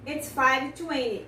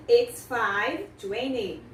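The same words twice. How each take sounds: First: Said in the usual way. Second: "it's five twenty" stretched out very slowly; slow model answer. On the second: Shown as a demonstration. Teacher slowly models the answer "it's five twenty". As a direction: spell out each word for the students. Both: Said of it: "Você fala".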